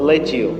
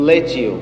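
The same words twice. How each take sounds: Both takes have the same delivery.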